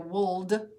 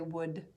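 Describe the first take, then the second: First: The L sound is pronounced in the word. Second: The L is silent in the word. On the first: The speaker calls it wrong. "We don't say would" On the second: The speaker calls it right. "we say would"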